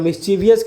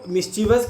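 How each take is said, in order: First: An extra 'ee' sound comes before '-us', four syllables. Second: The word ends plainly in '-vus', three syllables. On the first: The speaker calls it wrong. "I O U S कर दीजिए, जो कि गलत है" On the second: The speaker calls it right. "तो मिस्चीवस कहेंगे तो ज़्यादा अच्छा रहेगा।"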